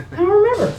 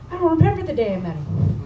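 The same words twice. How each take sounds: First: "remember" higher and louder; emphatic repeat. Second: Said in the usual way. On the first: Real, not acted. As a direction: hit "remember" hard, disbelieving.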